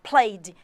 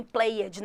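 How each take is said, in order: First: "played" in one syllable, ending in a plain d; firm, louder "played" with silent e; correct -ed pronunciation. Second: "played" in two syllables, "play-edj"; wrong -ed pronunciation. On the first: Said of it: "nem played". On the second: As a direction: sound out the -ed in "played" as a mistake. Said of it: "não quero ninguém falando". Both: Shown as a demonstration.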